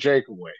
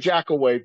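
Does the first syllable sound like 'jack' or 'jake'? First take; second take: jake; jack. First: The first syllable sounds like 'jake'. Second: The first syllable sounds like 'jack'. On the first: This is how the family says the name. The speaker calls it right. "but we're firm on Jakeaway" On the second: This is how most people say the name. The speaker calls it wrong. "most would say Jackaway"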